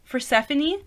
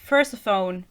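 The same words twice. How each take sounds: First: "Persephone" as per-SEF-uh-nee, rising like a question; unsure pronunciation. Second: "Persephone" ending like "telephone"; mispronounced Persephone. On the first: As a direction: try "Persephone" with four syllables, stress on SEF. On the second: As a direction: say "Persephone" as PER-suh-fone, no final ee. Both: Shown as a demonstration. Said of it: "I still don't know how to pronounce it".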